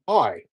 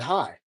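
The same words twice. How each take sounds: First: It is said in a put-on British accent. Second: It is said in his normal accent.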